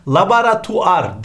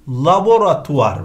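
First: LABORATUVAR as "labaratuar"; wrong pronunciation. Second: LABORATUVAR with a clear o, "la-bo-ra"; correct pronunciation. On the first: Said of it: "değil". (laboratuvar yanlış, "labaratuar") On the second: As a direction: stress the bo in laboratuvar. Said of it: "hem A, O oldu". (laboratuvar doğru, o ile) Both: Shown as a demonstration.

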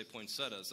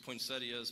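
First: "poinsettias" in three syllables, poin-SET-uhs; poinsettias without the i. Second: "poinsettias" in four syllables, poin-SET-ee-uhs. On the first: Pastor sticking to his own form, "poinsettias" ending -tuhs. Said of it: "I still say poinsettias". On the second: Pastor giving the supposedly correct form, "poinsettias" ending -ee-uhs. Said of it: "it's supposed to be poinsettias". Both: Shown as a demonstration.

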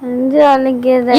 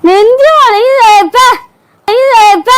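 First: Weak drawn-out moan. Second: High, loud, hammed-up cry: நெஞ்சு வலிக்குது wailed; loud wail of pain. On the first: Acted. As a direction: moan it weakly, as if barely able to speak. Wife fakes chest pain. (மெதுவாக முனகும் வலிக்குரல்) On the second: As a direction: wail it out much higher and louder, milking the pain. Wife escalates fake chest pain. (உரத்த நாடகத்தனமான வலி ஓலம்)

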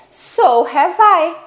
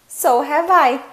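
First: Slow demo. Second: Said in the usual way. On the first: Shown as a demonstration. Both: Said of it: "Então, você pode responder".

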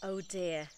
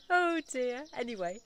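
First: Said in the usual way. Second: Higher and louder, laughing through the words Oh dear. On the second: Real, not acted. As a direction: chuckle out an amused Oh dear.

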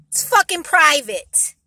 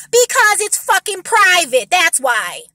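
First: Slow, louder, pressed repeat; firm repeated anger. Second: Louder, slow, higher angry retort; real anger, spelled out; angry emphasis. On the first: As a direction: lean on fucking. Repeating the angry point. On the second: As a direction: hit it hard and slow. Angry answer to mocked objection. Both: Real, not acted.

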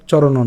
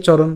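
First: চরণও with an open o after n; wrong vowel ending. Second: চরণ ending on a bare n; closed final n. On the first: Teacher showing what not to say, open-ended চরণও. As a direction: add a final o to make চরণও. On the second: Teacher correcting the word ending, চরণ closed on n. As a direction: stop চরণ at the n, no vowel. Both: Shown as a demonstration. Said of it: "চরণও না".

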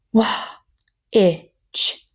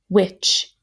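First: "Wah", airy with H, then "itch" separately; sounded out. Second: Said in the usual way. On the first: Shown as a demonstration. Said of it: "we can hear the H". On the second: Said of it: "So here we go".

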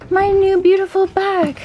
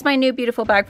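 First: Very high, silly gushing voice; playful gushing. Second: Said in the usual way. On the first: Pretend. Showing off her new Target bag, playful gushing. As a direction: coo it high in a hammed-up voice. Gushes over new bag, then repeats plainly.

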